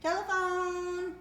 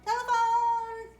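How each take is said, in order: First: Slow, drawn-out Telephone!; coaxing cue word. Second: Higher, louder, slow Telephone!; excited cue word. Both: Shown as a demonstration. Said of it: "What's the telephone do?".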